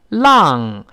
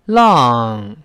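First: The vowel is spread too wide. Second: The vowel is more upright and rounded. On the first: The speaker calls it wrong. "声音又太往两边拐了" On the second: The speaker calls it right. "再稍微立起来一点"

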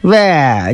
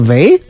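First: The pitch falls, sounding resigned. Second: The pitch rises, sounding hopeful.

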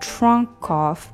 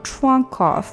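First: The two words are said separately. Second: The two words are linked together.

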